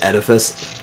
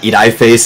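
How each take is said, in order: First: The vowels are said short, the usual way. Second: A vowel is said long, like its letter name. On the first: The speaker calls it right. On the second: The speaker calls it wrong.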